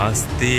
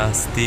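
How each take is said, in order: Both takes have the same delivery.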